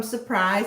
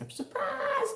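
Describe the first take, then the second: First: Said in the usual way. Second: Very high, sing-out surprise; playful high-pitched exclamation. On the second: Shown as a demonstration. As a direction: pop it out high and drawn out. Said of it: "I always just love saying".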